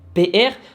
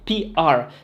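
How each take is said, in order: First: Both letters are said the French way. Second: Both letters are said the English way. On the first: "la prononciation française" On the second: "la prononciation anglaise"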